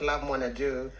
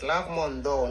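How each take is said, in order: First: The surname starts with an 'nai' syllable. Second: The surname starts with a bare 'n' sound. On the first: The speaker calls it wrong. "not Lovemore Naidoo" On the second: The speaker calls it right. "the proper pronunciation is Ndo"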